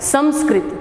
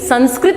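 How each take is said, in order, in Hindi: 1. पहला अक्षर म ध्वनि पर समाप्त होता है। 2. पहला अक्षर न ध्वनि पर समाप्त होता है। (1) "क्योंकि इसमें कौन सा उपसर्ग है? सम।" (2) "संस्कृत नहीं होता है"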